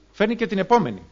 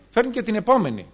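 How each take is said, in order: Both takes have the same delivery.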